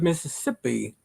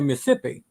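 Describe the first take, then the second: First: Mississippi is said the way a Canadian would. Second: Mississippi is said the way locals say it. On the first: It imitates how the Canadian sender would say it. "I said it the way he would probably say it because he's Canadian" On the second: It is how someone who lived there says it. "I went to college there, and I say Mississippi"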